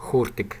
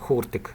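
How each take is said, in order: No difference in how they are said.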